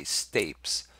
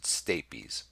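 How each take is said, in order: First: Stapes said as one syllable, "stayps". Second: Stapes said slowly as "STAY-peez"; two-syllable stapes. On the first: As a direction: say stapes with a silent e, rhyming with "drapes". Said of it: "some people say stapes". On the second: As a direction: say stapes in two syllables, ending in a long "eez". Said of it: "I pronounce it stapes". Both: Shown as a demonstration.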